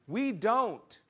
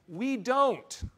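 First: We hit first, then falls; stress on we. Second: Don't punched high and loud; stress on don't. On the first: Preacher repeating, now stressing We, firm. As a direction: lean on We in We don't. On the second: Preacher stressing don't to his listeners, punched. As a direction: hit the word don't, not we. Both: Shown as a demonstration.

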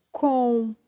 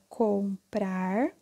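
First: "comprar" in two isolated syllables, com, pause, prar; sílabas separadas. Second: Said in the usual way. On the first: Shown as a demonstration. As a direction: split "comprar" with a clear gap before prar. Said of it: "Quando eu separo". ("comprar" separado em sílabas: com... prar) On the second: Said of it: "quando eu escrevo junto".

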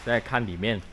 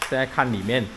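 Both takes have the same delivery.

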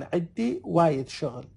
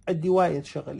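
First: Slow teaching demo. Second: Said in the usual way. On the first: Shown as a demonstration.

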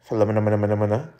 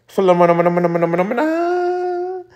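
First: "Philomena" rattled off fast and softer; name drill. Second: Chanted, "Philomena" sped up, then a much higher stretched final "Philomena"; chanted, singsong run of "Philomena"; silly name chant. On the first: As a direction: practise "Philomena" quickly. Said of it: "is that how you say it". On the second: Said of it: "let me know if I'm saying that right". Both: Real, not acted.

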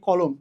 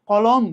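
First: Slow "কলম" ending in a rounded ও sound; closed o vowel. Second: Slow "কলম" with an open অ in both syllables; open second vowel. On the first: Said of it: "মানে ও এর মতো হয়". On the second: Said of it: "এটা একটা উচ্চারণ". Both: Shown as a demonstration.

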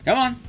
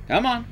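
The two takes are said the same way.

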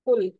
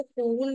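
First: कुल with a short, quick u; brief u in कुल, not oo. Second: कूल with a long, drawn-out oo; wrong take कूल, held oo. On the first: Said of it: "short ऊ का sound लिखेंगे". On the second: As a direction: stretch the vowel in कूल. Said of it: "कूल नहीं लिखेंगे". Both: Shown as a demonstration.

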